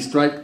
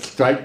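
First: The word is said clearly, without a lisp. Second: The word is said with a lisp.

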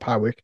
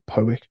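First: The name is said in a non-local way. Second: The name is said the way locals say it. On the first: The speaker calls it wrong. "not Powick" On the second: The speaker calls it right. "The locals pronounce it Powick"

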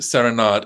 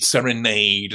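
First: The last syllable does not rhyme with made. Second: The last syllable rhymes with made. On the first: The speaker calls it wrong. "the Balanchine world is wrong" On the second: The speaker calls it right. "as if the two words rhyme"

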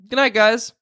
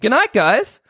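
First: It sounds calm and ordinary. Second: It sounds frustrated and annoyed.

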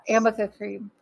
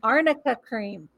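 First: The first word has an 'm' sound in the middle. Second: The first word has an 'rn' sound in the middle. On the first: The speaker calls it wrong. "She kept going Amica cream" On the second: The speaker calls it right. "Arnica. Say it with me"

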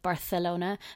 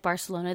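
First: The 'c' is said as a lisped 'th' sound. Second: The 'c' is said as a plain 's' sound.

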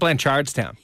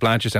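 First: It is said with American intonation. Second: It is said with Irish intonation. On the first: The speaker calls it wrong. "the intonation on certain words is just off" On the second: The speaker calls it right. "instead of Blanchardstown"

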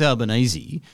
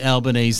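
First: The name ends rhyming with easy. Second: The name ends rhyming with Japanese. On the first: This is how most people say the name now. "But now it seems that everyone says Albanese" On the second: This is the older way the name was said. "Or like Japanese"

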